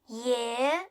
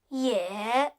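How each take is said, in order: First: The pitch rises from middle to high. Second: The pitch dips low, then rises.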